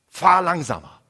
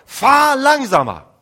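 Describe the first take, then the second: First: It is said at a normal, quiet volume. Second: It is said very loudly.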